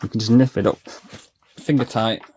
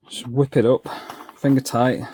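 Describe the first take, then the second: First: Talking around a sachet held in the teeth; words muffled by something in the mouth; mouth full. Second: Said in the usual way. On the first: Real, not acted. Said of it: "I had my grease sachet in my mouth". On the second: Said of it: "Sorry, I had my grease sachet in my mouth".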